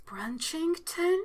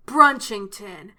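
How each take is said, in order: First: "Brunchington?" slow, rising, a little softer, puzzled; questioning repeat. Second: "Brunchington." slow, lower, louder, falling and final; emphatic confirm. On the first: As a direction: ask "Brunchington?" slowly as if unsure it's real. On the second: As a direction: state "Brunchington." slowly with a firm drop. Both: Shown as a demonstration. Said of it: "repeating the place name".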